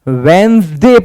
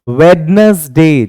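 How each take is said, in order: First: The middle d sound is silent. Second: The middle d sound is pronounced. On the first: The speaker calls it right. "डी silent होता है यहां पर" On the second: The speaker calls it wrong. "इसको लोग English में क्या बोलते हैं?"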